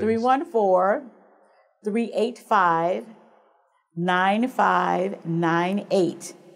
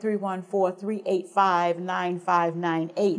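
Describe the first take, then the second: First: The number is said slowly. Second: The number is said fast.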